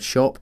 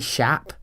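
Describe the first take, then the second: First: The vowel is the usual rounded 'o' sound. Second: The vowel is an open 'a' sound.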